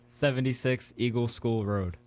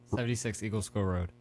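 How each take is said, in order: First: The address is said slowly. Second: The address is said fast.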